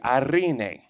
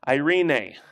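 First: The r is rolled with the tongue. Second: The r is said plainly, without a roll. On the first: The speaker calls it right. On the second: The speaker calls it wrong.

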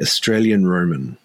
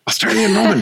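First: It is said in a normal voice. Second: It is shouted loudly.

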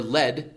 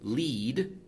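First: It is said as the noun form. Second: It is said as the verb form. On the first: The word is used as a noun. "if it's in the case of a noun" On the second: The word is used as a verb. "in the case of a verb"

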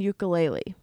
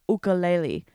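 First: It has the common anglicized American pronunciation. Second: It has a native-style, non-anglicized pronunciation. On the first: This is the accepted everyday form. The speaker calls it right. "That's how Americans say it" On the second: This is the form used to correct others. The speaker calls it wrong. "you're supposed to say ukulele"

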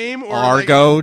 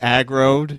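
First: The word begins with 'ar'. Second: The word begins with 'ag'. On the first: The speaker calls it wrong. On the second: The speaker calls it right.

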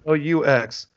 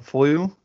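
First: The word ends with a clear final x sound. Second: The word ends without the final x sound. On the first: The speaker calls it right. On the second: The speaker calls it wrong.

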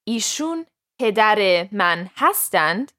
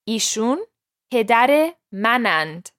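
First: The final verb is said in full. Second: The final verb is shortened and merged. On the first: This is the formal written form. "written Persian" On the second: This is the everyday spoken form. "gets reduced to"

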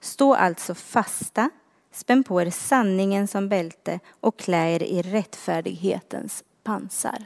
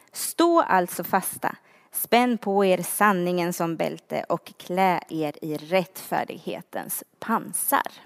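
No difference in how they are said.

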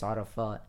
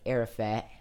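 First: The name is said with its native pronunciation. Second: The name is said with an American pronunciation. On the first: The speaker calls it right. "but it's Arafat" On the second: The speaker calls it wrong. "the Americans would say like Arafat"

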